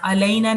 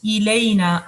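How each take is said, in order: First: अलैना with an a sound at the start, the wrong way; wrong pronunciation. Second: इलैना with a clear i sound at the start; correct pronunciation. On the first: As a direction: demonstrate अलैना as the mistake to avoid. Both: Shown as a demonstration. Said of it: "अलैना नहीं है".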